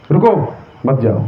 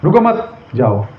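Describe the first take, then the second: First: रुको alone, then मत जाओ as one phrase; pause after रुको. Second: रुको मत as one phrase, then जाओ alone; pause after मत. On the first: Teacher contrasting two comma placements, pause after रुको. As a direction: break the phrase just before मत. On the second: Teacher contrasting two comma placements, pause after मत. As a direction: break the phrase just before जाओ. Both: Shown as a demonstration. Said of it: "एक कॉमे से कितना मतलब".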